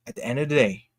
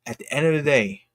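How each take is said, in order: Both takes have the same delivery.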